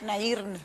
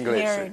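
First: The name is said with Spanish pronunciation. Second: The name is said with English pronunciation. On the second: "en inglés"

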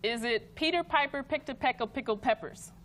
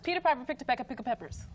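First: It is said at a normal speed. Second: It is said very fast.

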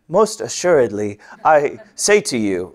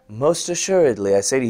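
First: It is said in an exaggerated storybook manner. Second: It is said perfectly calm and composed.

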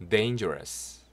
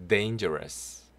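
The two takes are said the same way.

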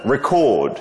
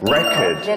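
First: The stress is on the second syllable. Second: The stress is on the first syllable. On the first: It is the verb meaning to record a video. "이거 녹화하다는 record" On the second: It is the noun meaning a vinyl disc. "근데 그 LP판은 record"

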